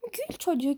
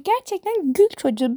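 First: Soft. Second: "gül" lifted high and stressed; emphatic. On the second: Insisting to viewers on the new term, emphatic and higher. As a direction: land hard on "gül çocuğu" with a higher voice. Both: Shown as a demonstration.

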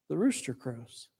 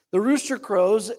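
First: The rooster crows said hushed and soft. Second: Said in the usual way. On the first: Shown as a demonstration. Preacher quietly lets the rooster crow, hushed. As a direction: let the rooster crows fall away softly.

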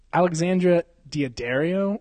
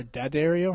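First: Daddario with an extra syllable, dee-uh-DARE-ee-oh; first pronunciation option. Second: Daddario as duh-DARE-ee-oh; second pronunciation option. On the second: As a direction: say Daddario without the extra "ee" syllable. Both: Shown as a demonstration. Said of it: "however you wanna say it".

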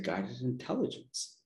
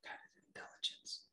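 First: Soft half-voiced repeat, a bit stronger; the whisper again, a little louder but still hushed. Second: Faint breathy whisper voicing an inner voice; barely-there whisper, as if from within. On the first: The inner voice repeats itself louder, soft murmur. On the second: She retells the whisper that came to her, hushed whisper. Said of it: "the whisper came to me and said".

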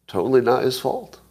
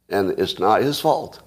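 First: "not" lifted high with a rising tune; stress on not. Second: Said in the usual way. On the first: Shown as a demonstration. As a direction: lean up hard on "not". Repeats the point more emphatically.

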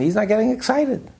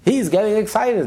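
First: "not getting excited" pitched high in contrast; stress on NOT. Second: "he's" punched high, then falling; stress on HE'S. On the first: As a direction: set "not" against the other man's excitement. Contrasts literate teacher with peasant. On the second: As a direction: hit "he's" to single out this man. Contrasts peasant with literate teacher. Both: Retold or imitated.

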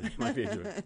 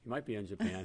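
First: Laughing through the words; chuckling high while repeating it. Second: Said in the usual way. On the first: Real, not acted.

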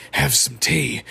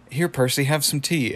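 First: Creepy doll mocking the offer; Percy. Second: Lightly voiced polite tea host; Pops. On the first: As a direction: throw it back in a rough doll voice. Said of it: "He's like". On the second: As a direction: offer it innocently in your own slightly lifted voice. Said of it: "Pops is like".

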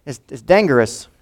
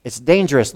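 First: "dangerous" said as "dan-ANGER-ous" with a hard g; anger inside dangerous. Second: Said in the usual way. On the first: Shown as a demonstration. Preacher shows the congregation the anger hidden in the word, pointing out "dangerous" as "dan-ANGER-ous". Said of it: "Anger, right in the middle". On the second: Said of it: "it's right there in the word".

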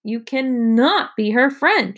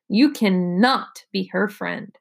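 First: Slow, higher, emphatic shout; restrained shout. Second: Slow, word-by-word refusal; emphatic refusal. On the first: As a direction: raise it into a drawn-out, insistent protest. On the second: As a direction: lay down each word slowly, without raising the voice. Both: A narrator's reading. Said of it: "shouted Evan".

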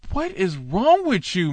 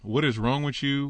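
First: High, odd put-on voice of disbelief; incredulous outburst. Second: Softer, flat-out aside to himself; dry aside. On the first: Preacher reacting to the teacher's menorah claim, incredulous high voice. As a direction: ask it as if the claim were absurd. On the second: Real, not acted. Preacher muttering about the teacher's claim, soft dry aside. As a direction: say it under your breath, shaking your head. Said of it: "Son, you need to get some help".

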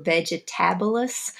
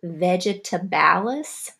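First: Vegetabilis with a short "i" in the middle; alternative pronunciation. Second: Vegetabalis said slowly, middle vowel as "a"; slow unsure pronunciation. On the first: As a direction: say Vegetabilis as a quick corrected try. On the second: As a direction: sound out Vegetabalis carefully, syllable by syllable. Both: Shown as a demonstration. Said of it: "I'm not sure exactly how to pronounce that".

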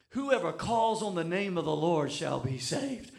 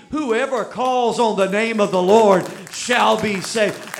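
First: Said in the usual way. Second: Loud, slow, preaching; full-force preaching. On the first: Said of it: "That's what my Bible tells me". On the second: Acted. Preacher proclaiming the verse loudly to the congregation. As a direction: proclaim it to the back row.

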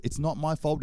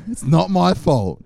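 First: Said in the usual way. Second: Slow, much louder insistence; mock-defiant louder not-my-fault; emphatic protest. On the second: Real, not acted. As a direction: hammer the words home to the directors. Pleading to daycare directors.

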